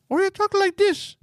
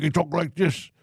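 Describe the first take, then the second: First: Much higher, drawn-out tone; high, slow demo of another tone; different tone. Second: Different tone. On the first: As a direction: pitch it way up and stretch it. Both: Shown as a demonstration. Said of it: "Different tone. Just how you say".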